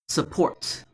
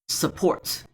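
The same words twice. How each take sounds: Both takes have the same delivery.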